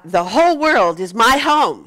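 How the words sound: It is said loudly with lively enthusiasm. "let's do it with enthusiasm"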